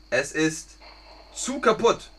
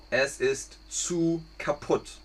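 First: Said in the usual way. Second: Slow, clear teacher repeat with "zu" stressed. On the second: Shown as a demonstration. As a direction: say it slowly for learners.

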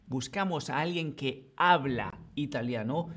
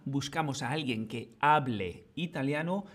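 First: Habla said with a rising lift; stress on habla. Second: Hable said with a rising lift; stress on hable. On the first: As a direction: lean on the verb habla to mark the indicative. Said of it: "En la primera". (acento en habla, con subida en el verbo) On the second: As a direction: lean on the verb hable to mark the subjunctive. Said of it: "En la segunda". (acento en hable, con subida en el verbo) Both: Shown as a demonstration.

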